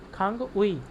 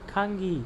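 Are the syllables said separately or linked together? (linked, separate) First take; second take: separate; linked. First: The two syllables are said as separate parts. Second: The two syllables run together into one sound. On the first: "यह लिखा है" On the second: "ये पढ़ा जाएगा"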